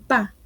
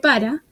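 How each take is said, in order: First: The final syllable is dropped from the word. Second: Both syllables of the word are pronounced. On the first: The speaker calls it wrong. "la omisión de letras o sílabas, como decir pa" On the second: The speaker calls it right. "en lugar de para"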